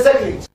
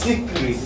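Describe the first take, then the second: First: "secret" opened with a short SEK; model pronunciation. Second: "secret" opened with a long SEE; contrasting pronunciation. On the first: Teacher models the first word for pupils, SEK pronunciation. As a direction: say "secret" as SEK-reet for repeating. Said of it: "Say secret". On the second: Teacher contrasts the second word for pupils, SEE pronunciation. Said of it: "And this one is secret". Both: Shown as a demonstration.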